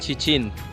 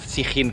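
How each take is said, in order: First: The name begins with a ch sound. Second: The name begins with an s sound. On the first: The speaker calls it right. "se llama Chichín" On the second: The speaker calls it wrong. "no Sijín, como os he dicho yo"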